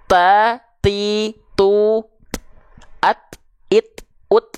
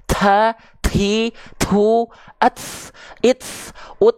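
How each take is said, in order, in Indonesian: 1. Setiap t hanya ada hembusan napas yang ringan. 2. Setiap t ada hembusan napas yang berat dan berlebihan. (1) "Cukup seperti ini saja. Perhatikan baik-baik" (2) "Jangan sampai berlebihan"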